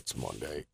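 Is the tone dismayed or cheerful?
dismayed. It is said with weary dismay.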